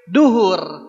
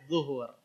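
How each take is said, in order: First: The word begins with a d sound. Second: The word begins with a z sound. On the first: The speaker calls it wrong. "Jangan sampai duhur" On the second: The speaker calls it right. "Ya, zuhur"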